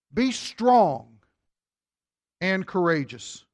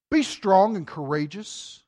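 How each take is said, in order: First: "Be strong" set apart, then a pause before "and courageous"; repeated with pause. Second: "Be strong and courageous" read slowly and evenly; slow emphatic reading. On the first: Preacher repeating the verse to drive it home, with a pause. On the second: Preacher reading the verse to the congregation, slow and weighty. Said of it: "notice he says here". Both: Shown as a demonstration.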